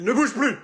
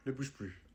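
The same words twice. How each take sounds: First: Cri. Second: Murmuré. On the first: Peintre crie sur le client. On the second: Répété tout bas. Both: Acted.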